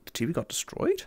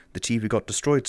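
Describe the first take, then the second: First: "destroyed" rising high at the end; softer, doubting echo, lifting sharply on "destroyed"; puzzled question. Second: Said in the usual way. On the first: Real, not acted.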